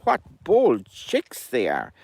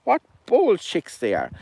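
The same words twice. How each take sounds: First: Slow, mildly tutting mother hen; drawn out, shaking her head at bold chicks; Henny scolding. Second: Higher sneering echo of the hen; higher mocking echo by the cuckoo; Albert mocking. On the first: Acted. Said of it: "Henny was saying". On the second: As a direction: parrot her words with a smirk. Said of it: "Albert's laughing under his breath".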